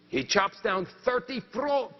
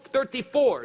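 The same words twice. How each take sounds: First: Said in the usual way. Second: "thirty-four" again, louder and punched; emphatic repeat. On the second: A narrator's reading. Stressing Pierre's record to the listeners, emphatic. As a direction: hit "thirty-four" hard the second time.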